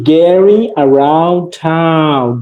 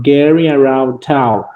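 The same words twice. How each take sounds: First: Very slow, stretched-out lesson title; slow model reading. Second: Slightly quicker, falling repeat of the title; repeated model reading. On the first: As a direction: draw out each word for the class. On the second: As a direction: repeat it less drawn out, still measured. Teacher repeats the lesson title. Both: Shown as a demonstration.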